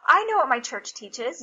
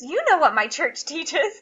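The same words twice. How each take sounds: First: I hit louder, rest lighter; incredulous stress on I. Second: YOU pushed higher and louder; incredulous, higher stress on You. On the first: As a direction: lean on I, as opposed to you. Contrasts herself with her son. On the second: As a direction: lean hard on You, laugh creeping in. Turns the same words on son. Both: Retold or imitated.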